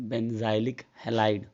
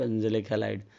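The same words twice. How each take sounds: First: Benzylic said slowly as "ben-ZAI-lik"; very slow, spelled-out "benzylic", ben-zai-lik; teacher's pronunciation. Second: Benzylic said "BEN-ze-lik"; short "e" in the middle of benzylic; students' pronunciation. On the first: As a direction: stretch benzylic out with a long "eye" middle. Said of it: "तो हम लोग उसे क्या बोलेंगे भाई". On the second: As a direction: say benzylic as "benzelik", no long "eye". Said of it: "कोई बच्चे benzylic halide बोलते हैं ना". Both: Shown as a demonstration.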